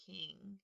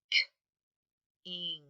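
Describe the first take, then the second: First: Said in the usual way. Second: King split into a bare k, long gap, then ing; "K-ing" with the k cut off from the ing; sounding out. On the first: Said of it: "Let's spell that". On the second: Shown as a demonstration. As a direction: tap out "K-ing" in two separate sounds. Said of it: "And the second syllable".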